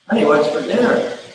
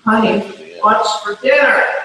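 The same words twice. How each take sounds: First: It is said at normal volume. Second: It is said very loudly.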